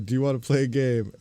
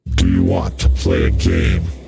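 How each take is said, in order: First: It is said in his normal voice. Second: It is said in a put-on character voice.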